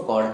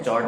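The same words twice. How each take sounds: First: कॉर्ड with a hard k sound at the start, not ch; teacher giving the correct reading कॉर्ड with a hard k; correct pronunciation. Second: Teacher demonstrating the wrong reading चॉर्ड with ch; wrong pronunciation. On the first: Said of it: "चॉर्ड नहीं, इसको कॉर्ड कहा जाता है". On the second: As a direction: say चॉर्ड with ch the way many students wrongly do. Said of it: "कई लोग इसको चॉर्ड कहते हैं". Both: Shown as a demonstration.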